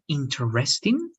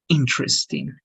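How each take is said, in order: First: The stress falls on a later syllable. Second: The stress falls on the first syllable. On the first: The speaker calls it wrong. "the stress is not interesting" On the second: The speaker calls it right. "it's going to be interesting ... the stress in the first part"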